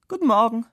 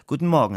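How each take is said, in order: First: High, louder silly-colleague greeting. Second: Said in the usual way. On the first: A narrator's reading. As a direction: pipe up like a silly office mate. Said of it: "der alberne Kollege". (hoher, lauter Gruß des albernen Kollegen)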